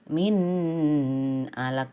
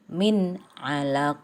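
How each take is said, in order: First: The n sound is blurred and unclear. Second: The n sound is pronounced clearly. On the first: The speaker calls it wrong. "Tidak boleh" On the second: The speaker calls it right. "harus jelas"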